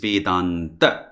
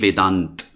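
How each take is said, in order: First: The final a vowel is pronounced after t. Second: The word ends on t with no vowel. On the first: This is the Sanskrit form of the name. "So it is Vedanta" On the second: This is the Hindi form of the name. "That's Hindi, no problem"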